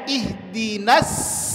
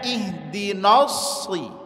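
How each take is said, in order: First: Both the n and s sounds are thin. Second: The n sound is thick and heavy. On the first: "sama-sama tipis keduanya" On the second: "kesalahan yang pertama... Tebal nunnya"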